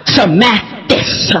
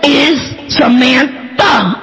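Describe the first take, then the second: First: "Samathis" drawn out, ending in "-this"; mispronounced name. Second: "Samantha" drawn out, ending in "-tha"; correct name. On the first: Correcting Grandma on little sister's name, mispronunciation drawn out. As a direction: stretch out "Samathis" syllable by syllable. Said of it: "I hear her say Samathis". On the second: Correcting Grandma on little sister's name, slow emphatic correction. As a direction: spell out "Samantha" slowly, landing on "tha". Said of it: "Her name, 'cause she my sister". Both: Retold or imitated.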